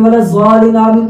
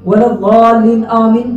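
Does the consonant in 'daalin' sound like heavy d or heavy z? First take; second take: heavy z; heavy d. First: The consonant is a heavy z sound. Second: The consonant is a heavy d sound. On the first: The speaker calls it wrong. "वाद की जगह हमने जा पढ़ लिया" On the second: The speaker calls it right. "अगर हम वलद्दालिन आमीन पढ़ रहे हैं"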